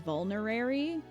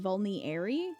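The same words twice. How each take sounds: First: The word is said with the extra R sound. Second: The word is said without the extra R sound. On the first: The speaker calls it right. "there was an extra R in this this whole time" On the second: The speaker calls it wrong. "I just thought it was vulnerary"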